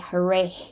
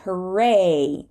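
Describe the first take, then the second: First: An h sound is heard at the end. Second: No h sound is heard at the end. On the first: The speaker calls it wrong. "We do not say hooray" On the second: The speaker calls it right. "Sometimes we do not say the H at the end of a word"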